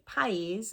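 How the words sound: It is said with a Black Country vowel. "we say peas"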